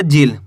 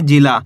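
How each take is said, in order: First: जिल ending on the l; final aa dropped. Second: जिला ending on an open long aa; final aa sounded. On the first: Teacher showing how not to read it, जिल without final aa. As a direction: stop जिल at the l, no vowel after it. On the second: Teacher modelling the right reading, जिला with final aa. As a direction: finish जिला with a full aa after the l. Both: Shown as a demonstration. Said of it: "ऐसे नहीं पढ़ना".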